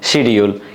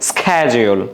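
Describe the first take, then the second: First: It is said in a Bangladeshi accent. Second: It is said in an American accent. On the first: "আমাদের বাংলাদেশের ভাষায় অনুযায়ী আমরা এটাকে বলি শিডিউল" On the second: "আমেরিকানরা কি বলে?"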